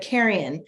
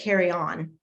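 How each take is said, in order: First: It sounds like the single word 'carrion'. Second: It sounds like the two words 'carry on'. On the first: The speaker calls it right. "but carrion" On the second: The speaker calls it wrong. "I was saying carry on"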